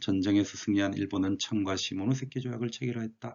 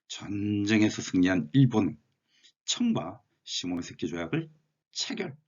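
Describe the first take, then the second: First: It is read evenly with little pitch variation. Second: It is read with varied pitch and lengthened syllables. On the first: "이렇게 읽을 수도 있고요" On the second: "짧은 한 문장에서 약간 고저장단을 넣어보려고"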